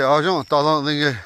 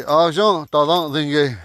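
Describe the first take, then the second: First: Argent, ta run together more briefly; abbreviated form. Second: Argent, ta Dingue drawn out in full; slow, every syllable of Argent, ta Dingue sounded; proper full form. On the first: Teacher showing how to abbreviate "I'm sleepy", shortened form. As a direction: say Argent, ta as one shortened phrase. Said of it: "When you abbreviate". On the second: Teacher showing the proper way to say "I'm sleepy", full form. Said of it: "That's the pro-, proper way to say". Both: Shown as a demonstration.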